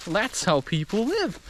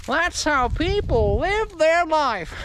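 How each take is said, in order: First: Said in the usual way. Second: High, slow drawn-out mockery; mock lament. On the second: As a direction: stretch it out high like a theatrical wail. Repeats the remark in mocking voice.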